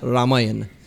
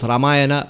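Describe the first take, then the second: First: The word ends with the consonant n. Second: The word ends with a final vowel sound. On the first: "It's Ramayan" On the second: "it could it could be both Ramayana"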